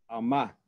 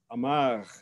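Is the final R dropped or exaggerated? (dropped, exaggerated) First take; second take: dropped; exaggerated. First: The final R is dropped entirely. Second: The final R is strongly exaggerated. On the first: This is the popular pronunciation. "se corta o R final" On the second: The speaker wants to sound cultured. "exageram o R"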